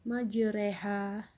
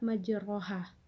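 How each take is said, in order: First: The vowel after r leans toward e; r is thin. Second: The vowel after r is a full open a; r is heavy. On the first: The speaker calls it right. "dibaca seperti e, dan huruf ro-nya dibaca tipis" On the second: The speaker calls it wrong. "tidak majroha"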